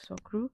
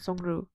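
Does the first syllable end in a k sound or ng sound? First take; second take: k sound; ng sound. First: The first syllable ends with a k sound. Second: The first syllable ends with an ng sound. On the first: This follows the spelling. "phonetically, I think that's how it's supposed to be like pronounced" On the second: This is how it is said in the drama. "it's constantly like the N G sound"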